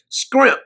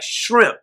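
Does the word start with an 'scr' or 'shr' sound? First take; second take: scr; shr. First: The word begins with an 'scr' sound. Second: The word begins with a 'shr' sound. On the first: This is how Stacy says it. The speaker calls it right. "Stacy orders the scrimp" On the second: This is how most people say it. The speaker calls it wrong. "most of you you pronounce it like shrimp"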